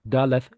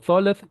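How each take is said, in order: First: The word begins with a d sound. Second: The word begins with a th sound. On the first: The letter has a dot in the middle. "if it has a dot, it's a D sound" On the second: The letter has no dot in the middle. "If it doesn't have a dot, it's a th sound"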